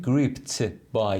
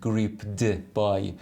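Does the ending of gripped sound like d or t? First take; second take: t; d. First: The ending of gripped sounds like t. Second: The ending of gripped sounds like d. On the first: The speaker calls it right. "اینجا میگیم gripped by" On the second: The speaker calls it wrong. "نمیگیم gripped by"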